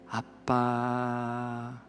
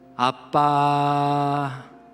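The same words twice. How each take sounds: First: It is said at a slightly raised volume. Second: It is said at a clearly higher volume.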